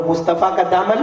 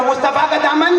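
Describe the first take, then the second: First: Chant. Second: Rousing chant. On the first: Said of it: "नहीं, नहीं, बोलो ना". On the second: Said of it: "नहीं, बोलो ना". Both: Shown as a demonstration.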